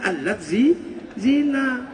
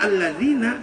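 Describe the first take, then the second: First: It is split into two separate parts. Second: It is said as one unbroken word.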